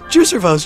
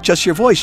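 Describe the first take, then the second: First: The words are blurred together into one word. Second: The three words are said clearly and separately. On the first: "And he starts going" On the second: "I grab him by the shoulders, and I'm like"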